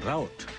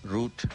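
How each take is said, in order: First: It is said the American way. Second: It is said the local town-service way. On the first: Locals laughed at it, but Americans say it this way. "Saya mengatakan route. lalu saya diketawakan" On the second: This is how the local bus service named it. "town service katanya"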